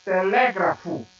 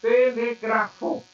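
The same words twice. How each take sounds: First: Telégrafo with a punched LÉ, falling after it; Portuguese stress on telégrafo. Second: Telegrafo stressed on the next-to-last syllable, GRA; Esperanto stress on telegrafo. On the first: Teacher contrasting Portuguese with Esperanto, stress on LÉ in telégrafo. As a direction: stress the second syllable of telégrafo, LÉ. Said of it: "Em português". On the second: Teacher showing the Esperanto word, slow telegrafo with stress on GRA. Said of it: "Em Esperanto". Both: Shown as a demonstration.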